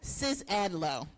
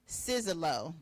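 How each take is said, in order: First: The surname is said with an 'ad' sound. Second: The surname is said without an 'ad' sound. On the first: The speaker calls it right. "See, I forgot the ad" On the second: The speaker calls it wrong. "I still didn't say it right?"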